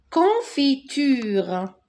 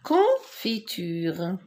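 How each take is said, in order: First: Confiture drawn out slowly, syllable by syllable; slow model word. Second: Confiture again slowly, a bit lower, rising at the end; slow repeat. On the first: Teacher modelling confiture slowly for young pupils. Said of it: "teacher models word". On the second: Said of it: "teacher repeats word". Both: Shown as a demonstration.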